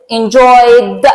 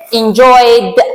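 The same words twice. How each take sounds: First: Enjoyed repeated, again ending on a plain d; ending sounds d. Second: Enjoyed said with a clear final d sound; ending sounds d. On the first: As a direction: let enjoyed close on a voiced d. (تکرار enjoyed با د پایانی) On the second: (enjoyed با صدای د در انتها) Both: Shown as a demonstration.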